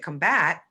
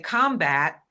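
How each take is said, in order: First: The stress is on the second syllable. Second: The stress is on the first syllable. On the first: It is a verb. "then it's a verb" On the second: It is a noun. "you have to recognize it as a noun, and I'm putting the stress somewhere at the front of the word"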